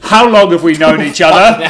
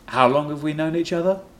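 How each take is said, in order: First: The question is asked in an assertive tone. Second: The question is asked in a mild tone.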